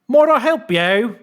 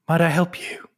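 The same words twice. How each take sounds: First: It is said in a Cockney voice. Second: It is said in a smooth, sensual voice.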